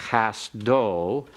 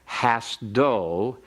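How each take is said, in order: The two takes are said the same way.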